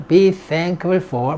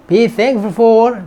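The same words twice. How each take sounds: First: "be thankful for" drawn out even slower and dropping in pitch; very slow, falling repeat. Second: "Be thankful for" stretched out word by word, very slow; slow drill. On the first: Teacher finishing a drill for students, very slow and falling. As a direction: settle the phrase down slowly at the end. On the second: Teacher slowing right down for a class repeating after her. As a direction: spell it out slowly so students can repeat it. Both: Shown as a demonstration. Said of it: "repeat after me".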